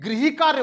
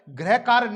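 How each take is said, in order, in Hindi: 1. पहला शब्द हल्की ई ध्वनि के साथ खत्म होता है। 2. पहला शब्द ई ध्वनि के बिना खत्म होता है। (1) "ये गृही कार्य होता है, ... ई झलकती है" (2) "गृह कार्य नहीं होता है"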